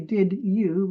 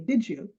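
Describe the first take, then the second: First: Both words are said fully and separately. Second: The words blend together into one reduced form. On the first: The speaker calls it wrong. "we don't say did you" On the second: The speaker calls it right. "we say did you"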